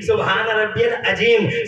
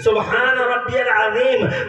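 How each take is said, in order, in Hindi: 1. आखिरी शब्द 'j' की आवाज़ के साथ बोला जाता है। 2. आखिरी शब्द 'z' की आवाज़ के साथ बोला जाता है। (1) "आपका प्रोनाउंसिएशन अच्छा नहीं है" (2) "पढ़ने के लिए आपको कहना है"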